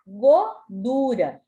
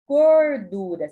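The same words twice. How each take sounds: First: Godura with the R dropped, said louder as the error; wrong godura without R. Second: Gordura said louder with a clear R before the D; correct gordura with R. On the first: Teacher showing the misspelt godura, louder. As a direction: drop the R: godura. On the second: Teacher giving the right gordura, louder. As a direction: stress the R in gordura. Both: Shown as a demonstration. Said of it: "Se nós não colocamos o R aqui".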